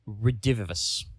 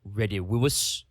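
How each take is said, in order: First: The v letters are pronounced as v sounds. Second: The v letters are not pronounced as v sounds. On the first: "I'm going to pronounce it with a V" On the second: "It would actually be Redivivus because the V's are pronounced that way"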